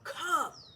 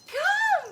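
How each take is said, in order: First: It is said in a stern, deep, irritated voice. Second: It is said in a bright, happy, excited voice. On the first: The dog may not want to come. The speaker calls it wrong. "really stern and and uh, deep voiced" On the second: Something great is happening at the other end. The speaker calls it right. "I sound really happy"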